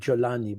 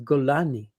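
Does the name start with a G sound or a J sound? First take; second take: J sound; G sound. First: The name begins with a soft J sound. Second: The name begins with a hard G sound. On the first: "this is the Arabic uh, pronunciation of his name" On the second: "in the way it's pronounced in the region"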